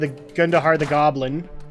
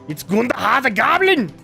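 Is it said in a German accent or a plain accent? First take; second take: plain; German. First: It is said in his plain accent. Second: It is said in a German accent.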